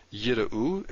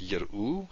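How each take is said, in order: First: Yira'u carefully divided at the break; syllable break. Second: Said in the usual way. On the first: Shown as a demonstration. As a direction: mark the break in yira'u, ending on a rise. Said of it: "so we have a syllable break". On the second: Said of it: "if we don't have it".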